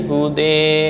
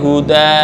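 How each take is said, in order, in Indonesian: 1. Vokal akhir terdengar seperti 'e'. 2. Vokal akhir terdengar seperti 'a'. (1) "menjadi hude" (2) "alif maksurah seperti huda"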